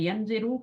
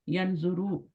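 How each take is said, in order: First: The vowel after the z is 'a'. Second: The vowel after the z is 'u'. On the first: The speaker calls it wrong. "यनजरू करेंगे गलत है" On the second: The speaker calls it right. "यनजुरू easy flow होता है"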